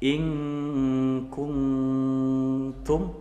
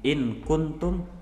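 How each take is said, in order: First: The n is hidden in a held nasal hum. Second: The n is pronounced clearly before the k.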